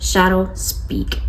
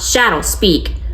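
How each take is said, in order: First: The command is firm but soft. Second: The command is not firm yet soft. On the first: The speaker calls it right. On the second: The speaker calls it wrong.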